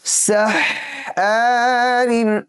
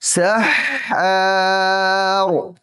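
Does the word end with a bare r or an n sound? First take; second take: n sound; bare r. First: The word ends with an added n sound. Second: The word stops short on the r sound.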